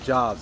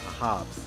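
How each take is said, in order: First: The word begins with a J sound. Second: The word begins with an H sound. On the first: The speaker calls it wrong. "I may may have been pronouncing it wrong" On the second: The speaker calls it right. "most likely an H sound"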